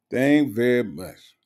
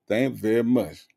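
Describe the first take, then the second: First: Slow mocking echo of Thank very much; mocking repeat. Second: Said in the usual way. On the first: Shown as a demonstration. Echoing the commenter's odd phrasing: slow mocking repeat. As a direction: savour the broken grammar, slowly.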